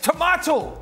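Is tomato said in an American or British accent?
British. Tomato is said with a British accent. The speaker calls it right. "They all stood up at the table and went"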